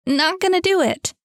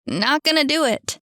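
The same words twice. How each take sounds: First: Much higher and louder yell; yelled even harder. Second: Loud, raised yell. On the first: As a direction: scream it out at the screen. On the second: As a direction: shout it at the game. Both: A narrator's reading. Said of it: "yelled Cam".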